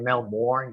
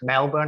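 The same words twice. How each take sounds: First: It is said in an American accent. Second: It is said in an Australian accent.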